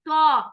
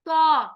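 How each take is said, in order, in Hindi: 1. यह व्यंजन भारी है, इसमें भारीपन है। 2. यह व्यंजन भारी है, इसमें भारीपन है।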